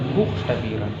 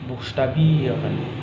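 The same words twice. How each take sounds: First: The stress falls away from the 'bie' syllable. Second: The stress falls on the 'bie' syllable. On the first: The speaker calls it wrong. "Jadi bukan buchstabieren" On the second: The speaker calls it right. "tapi buchstabieren"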